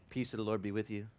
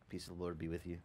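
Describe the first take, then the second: First: Said in the usual way. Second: Soft churchy murmur. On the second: Retold or imitated. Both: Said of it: "they're all so nice inside".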